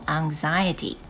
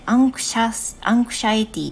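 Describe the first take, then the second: First: It is said with the standard English pronunciation. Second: It sounds like 'anxious' with an added ending. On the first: The speaker calls it right. "anxiety という風に言います" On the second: The speaker calls it wrong. "アンクシャスから来てるのでアンクシャイティとかね、違う風に読まれる方が多い"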